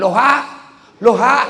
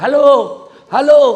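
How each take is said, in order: First: High, loud loha with a rising end; reversed shouted hello. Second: Much higher, much louder hello; retold shout. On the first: Retold or imitated. Old man shouts back after being told it's upside down. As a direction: yell the word backwards, confused. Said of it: "Dia bilang". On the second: Old man shouts into a phone held upside down. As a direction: bellow it into the receiver. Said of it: "Teriaklah dia".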